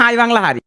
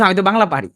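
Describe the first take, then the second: First: High, mock Noakhali accent with পারি said as হারি; imitating a colleague's Noakhali Bangla, হারি with an h. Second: Noakhali dialect. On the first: Teacher mimics a foreign colleague's Noakhali Bangla, in a playful Noakhali accent. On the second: Retold or imitated. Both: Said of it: "ও এসে আমার সাথে নোয়াখালী কথা বলতেছে".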